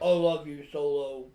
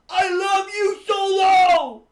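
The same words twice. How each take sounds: First: It is said deep and monotone. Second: It is said loud and proud, higher.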